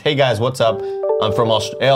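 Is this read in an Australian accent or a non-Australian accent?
non-Australian. It is read in a non-Australian accent.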